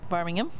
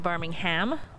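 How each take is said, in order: First: It is said with a British accent. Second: It is said with an American accent. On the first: This names the English city. The speaker calls it right. "originally from Birmingham, England" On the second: This names the American city. The speaker calls it wrong. "not Birmingham"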